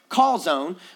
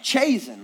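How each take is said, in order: First: It sounds like the food word calzone. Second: It sounds like the personal name Chazen. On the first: The speaker calls it right. "it's actually pronounced calzone" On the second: The speaker calls it wrong. "like I've met somebody named Chazen"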